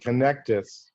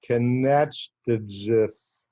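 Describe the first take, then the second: First: The name ends without a 'gis' sound. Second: The name ends with a 'gis' sound. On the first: This is how another person says it. The speaker calls it wrong. "he pronounces it connectus" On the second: This is the actual pronunciation. The speaker calls it right. "but it's connectigis"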